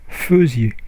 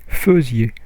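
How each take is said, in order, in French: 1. La première syllabe se prononce 'feu'. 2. La première syllabe se prononce 'feu'.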